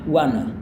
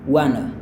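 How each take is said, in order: No difference in how they are said.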